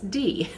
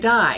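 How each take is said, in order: First: The vowel sounds like 'see'. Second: The vowel sounds like 'eye'. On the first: The speaker calls it right. "Use the other vowel" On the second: The speaker calls it wrong. "don't say die"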